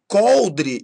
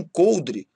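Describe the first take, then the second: First: COLDRE with open ó; timbre aberto. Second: COLDRE with closed ô; timbre fechado, errado. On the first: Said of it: "Timbre aberto ainda". (coldre com ó aberto) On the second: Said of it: "e não coldre". (coldre com ô fechado) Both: Shown as a demonstration.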